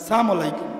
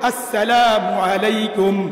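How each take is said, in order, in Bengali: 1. সালামটি সংক্ষেপে বলা হয়, কয়েকটি অক্ষর বাদ দিয়ে। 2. সালামটি পুরোটা বলা হয়, প্রতিটি অক্ষর উচ্চারণ করে। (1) "স্টাইলে সালাম, রাজনৈতিক সালাম" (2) "শুদ্ধভাবে বলবেন"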